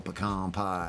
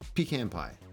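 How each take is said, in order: First: It is said in a Southern American accent. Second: It is said in a plain, unaccented way. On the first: This is how Southern friends say it. "I've had some southern friends and like, oh" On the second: This is how the family says it at home. "I think they would say pecan pie at the house"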